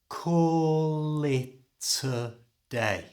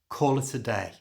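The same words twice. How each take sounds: First: The phrase is said slowly, word by word. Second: The phrase is said quickly at normal speed. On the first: "So slowly it's" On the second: "And at normal speed"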